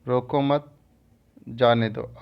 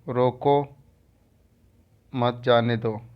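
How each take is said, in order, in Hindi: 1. दूसरे शब्द के ठीक बाद एक विराम है। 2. पहले शब्द के ठीक बाद एक विराम है। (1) "यहाँ पर जानो दो की बात हो रही है" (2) "यहाँ पर न जाने दो की बात हो रही है"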